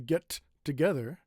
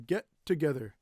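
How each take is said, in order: First: The T of get is released separately. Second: The T of get is held into together. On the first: The speaker calls it wrong. "We don't say" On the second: The speaker calls it right. "We say"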